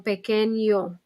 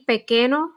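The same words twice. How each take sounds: First: The n is followed by a y sound. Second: The n is a plain n sound. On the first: The speaker calls it right. "the N becomes a Y sound. So pequeño" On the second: The speaker calls it wrong. "instead of saying pequeño, the way it looks"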